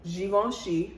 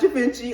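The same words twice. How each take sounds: First: The name is pronounced in a French way. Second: The name is pronounced in an Italian-sounding way. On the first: The speaker calls it right. "it's Givenchy, a French designer" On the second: The speaker calls it wrong. "not Givenchy, an Italian designer"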